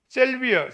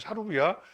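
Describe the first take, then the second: First: It is said as selbia, closer to English. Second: It is said as sarobia, a Japanese-style rendering.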